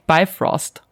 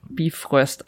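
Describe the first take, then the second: First: The name is said with an American English vowel. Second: The name is said with a German vowel sound.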